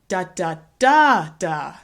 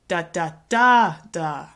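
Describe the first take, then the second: First: The stress is on the third syllable. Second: The same.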